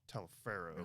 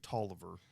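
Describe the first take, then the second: First: The name is said fully, sounding out every letter. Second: The name is said short, like 'Tolliver'. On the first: This is how the spelling makes it look. "It looks like it would be phonetically Taliaferro" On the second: This is how the man the name comes from said it. "he pronounces it Tolliver"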